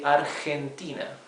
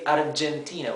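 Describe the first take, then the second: First: The G is a harsh sound from the throat. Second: The G is a soft English-style J sound. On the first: The speaker calls it right. "as if you were scratching your, your throat" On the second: The speaker calls it wrong. "we don't say Argentina"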